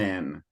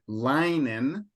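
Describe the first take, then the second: First: The first vowel is a short 'i' sound. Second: The first vowel is a long 'eye' sound. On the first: The speaker calls it right. "as if there were two N's" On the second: The speaker calls it wrong. "instead of fine linen"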